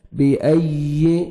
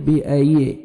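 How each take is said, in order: First: بِأَيِّ with the ي single and light, no doubling; without shadda. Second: بِأَيِّ with the ي doubled and pressed hard; with shadda. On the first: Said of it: "without شد". (بِأَيِّ بغیر شد کے، ہلکی یا) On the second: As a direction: lean firmly on the doubled ي in بِأَيِّ. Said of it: "شد ہے تو سختی سے پڑھیں گے". (بِأَيِّ شد کے ساتھ سختی سے) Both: Shown as a demonstration.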